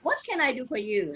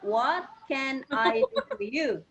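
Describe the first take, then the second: First: It is said faster. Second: It is said slowly.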